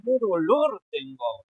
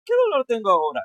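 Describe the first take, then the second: First: Mildly acted suffering, lingering on the words; feeling the pain. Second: Brisk, raised read-out with no pain; dry recital, louder but without suffering; wrong, unfeeling reading. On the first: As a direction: stretch DOLOR as if it hurts. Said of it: "Tiene que ser". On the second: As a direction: rattle it off loudly as a bad example. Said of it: "no vas a decir". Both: Shown as a demonstration.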